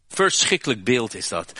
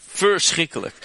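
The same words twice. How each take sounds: First: Said in the usual way. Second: Verschrikkelijk cried out high and loud in horror; horrified exclamation. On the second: Acted. Preacher recoiling at the brothers' betrayal, horrified cry. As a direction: throw up the word Verschrikkelijk like a gasp of dismay.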